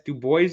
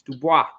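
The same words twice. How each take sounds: First: The name gets a local Pennsylvania pronunciation. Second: The name gets a French pronunciation. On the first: This is how people in Pennsylvania say it. "how they they can they pronounce it out there in Pennsylvania" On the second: This is the usual French way to say it. "it's French, it's Dubois"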